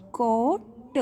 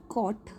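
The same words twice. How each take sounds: First: "कॉट" with a long vowel, then a separate t; "कॉट" split slowly into कॉ and ट; sounded out slowly. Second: Said in the usual way. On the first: Shown as a demonstration. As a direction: stretch "कॉट", then release the final ट on its own. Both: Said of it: "जब मैं उस word को pronounce करती हूँ".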